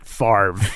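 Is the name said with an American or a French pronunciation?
American. The name is said with an American pronunciation. The speaker calls it wrong. "the way Americans pronounce French words"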